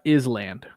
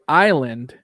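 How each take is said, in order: First: The s in the word is pronounced. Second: The s in the word is silent. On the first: The speaker calls it wrong. "and not island" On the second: The speaker calls it right. "you say island"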